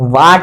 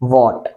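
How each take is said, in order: First: The vowel is an open, unrounded 'aa' sound. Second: The vowel is a rounded 'aw' sound. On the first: The speaker calls it wrong. "वाट नहीं" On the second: The speaker calls it right.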